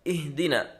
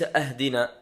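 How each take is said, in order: First: The word begins with the vowel i. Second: The word begins with the vowel a. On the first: The speaker calls it right. "بكسر الهمزة" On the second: The speaker calls it wrong. "بفتحها"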